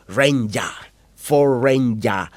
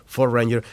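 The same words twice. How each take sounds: First: Drawn-out Queensland "Ranger", ending in an open "ya"; mock Queenslander accent. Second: Said in the usual way. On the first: Newcomer imitates the locals' name for the truck, mock Queenslander accent. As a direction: imitate a slow Queenslander saying Ford "Ranger". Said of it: "How can you call the Ford Ranger".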